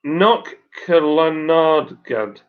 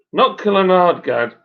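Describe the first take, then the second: First: "Knock Killarnagad" sounded out slowly, syllable by syllable; slow, deliberate go at saying "Knock Killarnagad"; careful second attempt. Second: "Knock Killarnagad" in one smooth, connected go; "Knock Killarnagad" joined up without gaps, higher; confident run-through. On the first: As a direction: stretch out "Knock Killarnagad" with a gap after "Knock". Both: Shown as a demonstration. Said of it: "Shall I have another go?".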